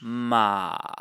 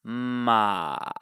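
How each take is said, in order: First: The pitch dips down, then rises slightly. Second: The pitch dips down, then rises slightly.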